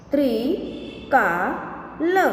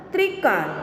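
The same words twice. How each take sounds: First: Slow, each sound drawn out, rising at the end; slow drawn-out reading. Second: Said in the usual way. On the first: Shown as a demonstration. Teacher slowly sounding out a word for students, drawn out. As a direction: stretch the word slowly for the class. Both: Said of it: "के उदाहरण हम देखें".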